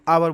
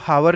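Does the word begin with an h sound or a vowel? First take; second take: vowel; h sound. First: The word begins directly with a vowel. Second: The word begins with an h sound. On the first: The speaker calls it right. "एच silent है" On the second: The speaker calls it wrong. "इसको हावर नहीं बोलेंगे"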